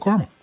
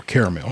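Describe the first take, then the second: First: "caramel" in two syllables, opening with car. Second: "caramel" in three syllables, opening with care. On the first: Reading out cake flavors, "caramel" said as CAR-mul. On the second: Offering the other way to say it, "caramel" as CARE-uh-mel. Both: Shown as a demonstration. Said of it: "however you say it".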